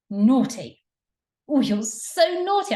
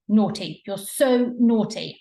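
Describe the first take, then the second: First: It sounds playful and excited. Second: It sounds scolding and disapproving.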